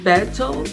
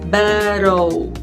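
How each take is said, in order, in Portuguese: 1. A consoante do meio é um som de T bem claro. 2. A consoante do meio é um toque rápido, parecido com R. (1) "Você pode ouvir battle" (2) "mas mais comum você vai ouvir battle"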